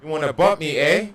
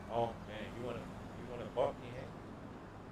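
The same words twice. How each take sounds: First: Louder, higher shouted challenge; shouting down a rival; loud taunt. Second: Soft sinister taunt; menacing hush. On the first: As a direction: bark the threat out loud. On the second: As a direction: lean in and threaten softly. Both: Acted. Taunting the player who bumped him.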